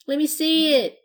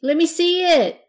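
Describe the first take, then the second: First: High, loud eager plea; little pirate tugging at her skirt, pleading. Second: Higher, louder, stress on me; pirate begging again even more insistently; pleading, louder. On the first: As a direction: beg like an impatient little kid. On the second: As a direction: push the plea harder, a kid who won't wait. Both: A narrator's reading.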